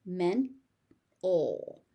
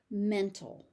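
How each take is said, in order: First: "Men-ol" as men, pause, ul; syllable by syllable. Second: Said in the usual way. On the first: Shown as a demonstration. Teacher sounding out "Men-ol" for learners, syllable by syllable. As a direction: split "Men-ol" into two beats.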